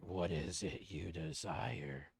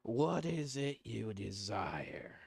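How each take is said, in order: First: Low, slow otherworldly voice; creepy paw voice. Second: Slow, breathy creepy whisper; whispering paw voice. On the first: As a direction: speak like a sinister cursed object. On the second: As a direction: whisper it like a tempting curse. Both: Acted.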